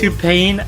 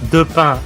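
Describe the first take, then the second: First: The first word begins with a T sound. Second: The first word begins with a D sound. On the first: The speaker calls it wrong. "you basically said to pain" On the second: The speaker calls it right. "it's de pain"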